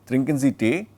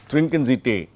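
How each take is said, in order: Both takes have the same delivery.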